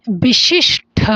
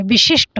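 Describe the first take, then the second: First: विशिष्ट drawn out to a breathy "-shth"; wrong aspirated ending. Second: विशिष्ट with unaspirated final "sht"; correct ending. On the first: Teacher showing the misspelt option, wrong aspirated ending. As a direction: say विशिष्ट as "bishish-tha", ending separated. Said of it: "ये गलत है". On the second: Teacher correcting the misspelt option, correct ending. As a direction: say विशिष्ट as "vishisht". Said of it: "विशिष्ट होगा". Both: Shown as a demonstration.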